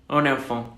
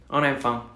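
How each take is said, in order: Both takes have the same delivery.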